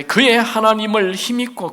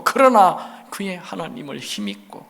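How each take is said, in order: First: 그의 stressed, a bit louder. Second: 그러나 stressed at the start. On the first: Preacher to congregation, pointing at 그의 with emphasis. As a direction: lean on 그의, letting the rest fall. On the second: Preacher to congregation, pressing on 그러나. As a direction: open hard on 그러나, then settle. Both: Shown as a demonstration.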